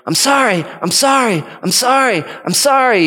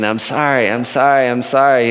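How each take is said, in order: First: Put-on much higher little-girl apology; imitated pleading girl. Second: Said in the usual way. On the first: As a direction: call out repeated apologies in a high child's voice. Imitating a sister's repeated apology.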